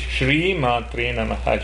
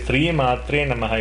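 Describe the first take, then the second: First: The first word begins with an sh sound. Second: The first word begins with a plain s sound. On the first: The speaker calls it right. "It is Sha and Ra there" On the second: The speaker calls it wrong. "We shouldn't say"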